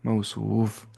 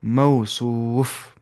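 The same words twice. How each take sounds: First: Said in the usual way. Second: मौसूफ drawn out slowly, each syllable clear; slow demonstration. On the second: Shown as a demonstration. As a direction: spell out मौसूफ slowly for the students. (मौसूफ धीरे-धीरे, साफ़ अक्षरों में) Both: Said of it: "क्या बन जाएगा ये?".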